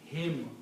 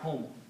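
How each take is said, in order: First: The pronoun is said with an 'i' vowel. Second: The pronoun is said with a 'u' vowel. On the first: The speaker calls it right. "this will be pronounced yuzakki him" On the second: The speaker calls it wrong. "not whom"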